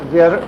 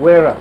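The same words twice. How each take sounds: First: The name begins with a V sound. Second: The name begins with a W sound. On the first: "the Russian name Vera" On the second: "it just turns out Vera"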